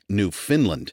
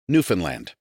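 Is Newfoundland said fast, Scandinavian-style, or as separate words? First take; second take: Scandinavian; fast. First: It is said with a Scandinavian-sounding pronunciation. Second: It is said quickly as one run-together word. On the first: The speaker calls it wrong. "as if it were somehow a Scandinavian colony" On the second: The speaker calls it right. "The key is to say it very fast"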